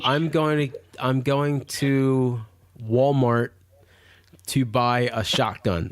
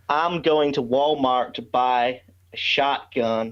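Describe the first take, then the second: First: Halting, drawn-out American accent. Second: Slow Southern accent with enunciated vowels; slow the pace and stretch the vowels, Southern American. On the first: Asked by hosts for his American impersonation, American accent. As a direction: feel your way slowly into an American accent. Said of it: "your American impersonation for us". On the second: Non-American guest shows hosts his impersonation, slow Southern American accent. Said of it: "okay, we enunciate the vowels". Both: Shown as a demonstration.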